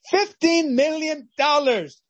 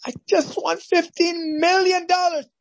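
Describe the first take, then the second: First: High, slow, savouring each word; awed repeat. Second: Much higher, breathless with joy; ecstatic announcement. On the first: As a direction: let the sum sink in slowly. Winner repeats the sum. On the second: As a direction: shout out the jackpot. Winner announces lottery win. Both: Acted.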